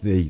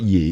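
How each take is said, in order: First: The word begins with a th sound. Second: The word begins with a y sound. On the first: The speaker calls it right. "it's thee" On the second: The speaker calls it wrong. "It's not ye"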